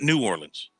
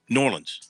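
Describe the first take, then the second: First: The name is said as separate full words. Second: The name is run together into one word. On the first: The speaker calls it wrong. "not New Orleans" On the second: The speaker calls it right. "the correct pronunciation of Norlands"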